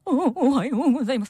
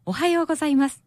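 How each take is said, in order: First: It is said sadly with a trembling voice. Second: It is said in a normal, steady voice.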